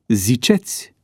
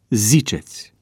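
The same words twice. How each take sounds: First: The stress is on the second syllable. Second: The stress is on the first syllable. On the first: The verb is treated as second conjugation. The speaker calls it wrong. "pronunția cu accentul schimbat" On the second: The verb is treated as third conjugation. The speaker calls it right. "Corect se spune"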